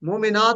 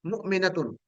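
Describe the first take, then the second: First: मोमिनात with a long stretched "naat"; wrong long vowel. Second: मुमिनतुन with a short "na", no long vowel. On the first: Teacher warning students against the long मोमिनात. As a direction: drag out the "naat" in मोमिनात as the error. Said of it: "मोमिनात नहीं कहना". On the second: Teacher drilling students on the correct short मुमिनतुन. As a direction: say मुमिनतुन with the "na" kept brief. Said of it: "इसको short करना है". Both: Shown as a demonstration.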